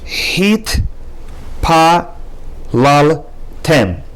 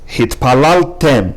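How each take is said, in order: First: Each syllable is said separately with small breaks. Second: The syllables run together as one smooth word. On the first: "Pronounce each syllable" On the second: "then read the new word"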